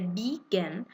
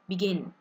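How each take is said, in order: First: The stress is on the first syllable. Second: The stress is on the second syllable. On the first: The speaker calls it wrong. "I am actually focusing more on the first part" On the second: The speaker calls it right. "So you're actually focusing on the E, in"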